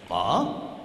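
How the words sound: The pitch rises across the syllable.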